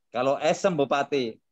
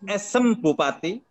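First: Said in the usual way. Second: "Esem Bupati" said slowly and higher, rising at the end; announced title. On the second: Shown as a demonstration. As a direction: present "Esem Bupati" like a heading. ("Esem Bupati" diucapkan pelan dan lebih tinggi, naik di akhir)

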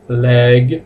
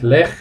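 First: "leg" ending in a gentle voiced G; "leg" with a softly released English G. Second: "leg" ending in a harsh Spanish J; mispronounced "leg" with a final kh sound; wrong "leg". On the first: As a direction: say "leg" with a light final g. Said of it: "la G suavecita". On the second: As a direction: say "leg" as "lej", with a throaty fricative. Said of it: "no digáis leg". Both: Shown as a demonstration.

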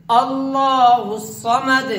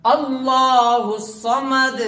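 First: Slow अल्लाहुस्समद said again, final द silent and cut short; teacher repeating the demo for students; repeat with final stop. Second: Slow अल्लाहुस्समद ending on a silent, unvoweled द; stop on final dal. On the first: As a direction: repeat it slowly, landing firmly on a silent द. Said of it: "ऐसा लगना चाहिए कि उसके ऊपर तशदीद नहीं बल्कि जज़म है". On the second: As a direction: draw it out slowly, then stop short on द. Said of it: "इस दाल को रुक करके पढ़ेंगे". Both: Shown as a demonstration.

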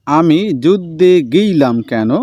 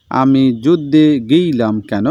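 First: Slow line with a light south Bengal lilt; south Bengal twang. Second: Slow, lightly southern Bengal reading; a touch of south Bengal dialect, drawn out; south Bengal twang again. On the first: Teacher reads the character's question with a light south Bengal twang. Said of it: "দক্ষিণবঙ্গের লোকের কথায় সামান্য যে একটা টান". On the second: Teacher repeats the soldier's question in a mild south Bengal twang. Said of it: "সেই টানের সঙ্গে". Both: Shown as a demonstration.

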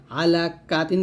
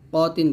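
First: আলা কা তিন with a long open কা, the wrong way; wrong kaa. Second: ক তিন with a short rounded ক; right ko. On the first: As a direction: stretch কা into kaa. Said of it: "বলবেন না". (ভুল উচ্চারণ: কা টেনে) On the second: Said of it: "ক তিন বলবেন". (সঠিক: ক ছোট করে) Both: Shown as a demonstration.

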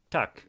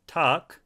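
First: "takk" short and clipped, quick vowel. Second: "takk" with a drawn-out, longer vowel. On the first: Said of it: "thank you in Norwegian is". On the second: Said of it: "a longer". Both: Shown as a demonstration.

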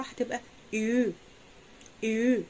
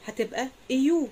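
First: إيو snatched fast into one sound; quick ü. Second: إيو glided from i into u; ü as i plus u. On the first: Teacher telling students to snatch ü quickly. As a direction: grab it and say it quickly. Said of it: "اخطفها وقولها بسرعة". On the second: Teacher explaining how to make ü from i plus u. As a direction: blend ee into oo. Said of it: "حط حرف E English زائد يو". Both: Shown as a demonstration.

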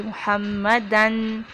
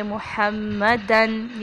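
First: مُحَمَّدًا with clear izhar nun; quick recitation. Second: مُحَمَّدًا slow with doubled mim; recitation demo. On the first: Teacher giving مُحَمَّدًا with izhar. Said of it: "تیزی سے ہم پڑھ جائیں گے". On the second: Teacher demonstrating مُحَمَّدًا. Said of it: "اخفا کرنے کی ضرورت نہیں ہے". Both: Shown as a demonstration.

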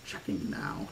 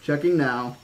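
First: Low, whispered sarcastic echo; mock the words under your breath; hushed, lower sarcastic mimicry; sarcastic repeat. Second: Said in the usual way. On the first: A narrator's reading. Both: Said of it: "he repeated sarcastically".

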